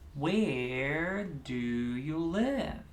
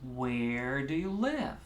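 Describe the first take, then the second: First: Medium speed, with three separate beats. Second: Fast, close to normal pace, with two beats. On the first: "Let's do three" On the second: "Where do you live is pretty much regular pace"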